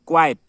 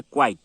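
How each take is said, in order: First: क्वाइट as kwa-yat, loud; quiet pronunciation. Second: क्वाइट as kwait; one syllable for क्वाइट, no ya; quite pronunciation. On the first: Teacher summing up the second word, क्वाइट said loudly as kwa-yat. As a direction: hit क्वाइट in two syllables with a ya. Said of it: "यहाँ में य आएगा". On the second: Teacher summing up the spellings, क्वाइट said kwait. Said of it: "ई आएगा". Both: Shown as a demonstration.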